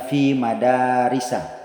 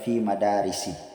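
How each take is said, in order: First: The final word ends with an a vowel. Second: The final word ends with an i vowel. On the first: The speaker calls it right. "tanda majrurnya berharokat fathah" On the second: The speaker calls it wrong. "Tidak boleh dibaca"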